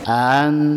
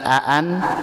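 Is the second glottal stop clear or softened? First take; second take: softened; clear. First: The second glottal stop is softened. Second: The second glottal stop is clear. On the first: The speaker calls it right. "bukan aan tetapi an" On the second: The speaker calls it wrong. "bukan aan"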